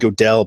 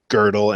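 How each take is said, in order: First: The first vowel is a plain 'o' sound. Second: The first vowel is a rounded umlaut 'ö' sound. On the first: The speaker calls it wrong. "I always call him Godel, I pronounced his name wrong forever" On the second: The speaker calls it right. "but it's actually Gödel"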